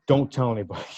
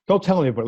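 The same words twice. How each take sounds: First: Said in the usual way. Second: Laughing repeat. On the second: Retold or imitated. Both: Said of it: "I said".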